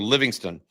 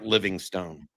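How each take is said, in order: First: The last syllable is reduced, like 'stun'. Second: The last syllable has a full 'stone' vowel. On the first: The speaker calls it right. "the proper way to say it is Livingston" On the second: The speaker calls it wrong. "I've been saying Livingstone off and on for months"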